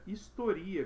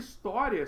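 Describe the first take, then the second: First: The stress falls on the syllable ri. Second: The stress falls on the syllable to. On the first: It is a verb form meaning recounts history. "se ele tira o acento, ele vira historia" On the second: It is the noun meaning history. "O próprio história"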